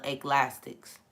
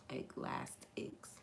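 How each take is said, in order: First: Said in the usual way. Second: Eclastics whispered slowly under the breath. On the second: Shown as a demonstration. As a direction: breathe Eclastics, unvoiced and drawn out. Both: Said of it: "She said Eclastics".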